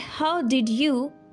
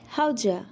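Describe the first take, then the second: First: Each word is said fully and separately. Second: The words are squeezed together into a reduced form. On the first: "instead of saying how did you" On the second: "you'll sound like how'd ya?"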